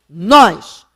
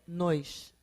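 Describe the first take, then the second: First: The word is said strong and stressed. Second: The word is said weak and unstressed. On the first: "o primeiro é tônico" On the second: "é átono"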